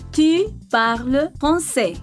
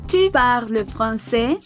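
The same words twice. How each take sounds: First: The pitch falls at the end. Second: The pitch rises at the end. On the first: It is a statement. "Pour une affirmation, l'intonation descend" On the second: It is a question. "pour une interrogation, l'intonation monte"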